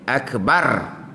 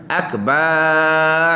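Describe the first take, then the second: First: The last vowel is short. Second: The last vowel is drawn out long. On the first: The speaker calls it right. "dia pendek" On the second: The speaker calls it wrong. "kita pergi panjang"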